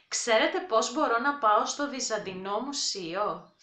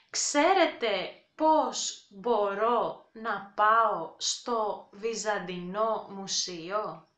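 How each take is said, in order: First: Ξέρετε πώς μπορώ να πάω στο Βυζαντινό Μουσείο? at brisk native speed; quick everyday pace; fast natural take. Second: Slow, careful Ξέρετε πώς μπορώ να πάω στο Βυζαντινό Μουσείο; for learners; slow demo. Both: Shown as a demonstration.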